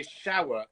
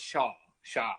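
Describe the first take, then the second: First: SHOWER in two full syllables; SHOWER with the W glide sounded; posh pronunciation. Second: SHAH as one long open syllable; non-posh pronunciation. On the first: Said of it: "when I say shower instead of shah". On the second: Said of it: "shower instead of shah". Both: Shown as a demonstration.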